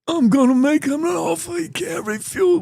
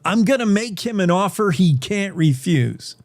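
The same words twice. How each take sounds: First: It is said in a Godfather-style impression. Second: It is said in his normal voice.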